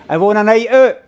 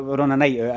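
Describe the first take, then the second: First: Raised, louder crowd-hyping question; rallying the crowd. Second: Said in the usual way. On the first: Real, not acted. Comedian to audience before the stories, rallying call. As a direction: call it out to get a cheer.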